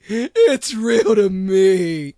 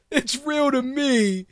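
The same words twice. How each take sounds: First: Slow, loud, lower wail of a true believer; mock devoted fan. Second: Said in the usual way. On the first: Shown as a demonstration. Mock wrestling fan insisting it is real, slow and loud. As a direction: drag it out like a crushed fan. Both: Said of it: "The shit is fake".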